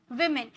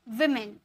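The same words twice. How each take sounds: The two takes are said the same way.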